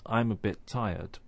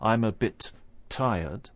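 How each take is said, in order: First: Only one t sound joins bit and tired. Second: Two separate t sounds are released in bit tired. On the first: The speaker calls it right. "we don't release that sound until we start to say tired. So it sounds like this" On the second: The speaker calls it wrong. "It's not"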